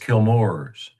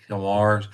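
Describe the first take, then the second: First: The second syllable sounds like 'more'. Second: The second syllable sounds like 'mar'. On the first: The speaker calls it right. "but it's Kilmore's. And um, that almost like O O R" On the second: The speaker calls it wrong. "I've been saying Kilmars, which I guess is that Tennessee accent"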